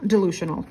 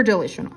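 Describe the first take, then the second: First: Said in the usual way. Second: "delusional" fumbled as "de-li-shnal"; "delusional" with "lu" slipping to "li"; mispronounced slip. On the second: Real, not acted. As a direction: stumble quickly over "delusional", middle vowel as a short "i". Slips on word, then corrects it.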